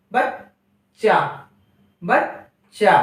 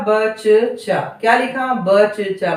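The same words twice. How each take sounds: First: बच्चा stretched slowly with a short half च; correct half cha. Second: बचचा said slowly with two full च; wrong full cha. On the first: Teacher modelling the right बच्चा slowly. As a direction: hold बच्चा slow, half च gliding into चा. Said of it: "और यहाँ आप पढ़िए". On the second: Teacher showing the wrong बचचा to compare. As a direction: pronounce बचचा as ब-च-चा, no half letter. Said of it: "बोलकर देखिए". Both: Shown as a demonstration.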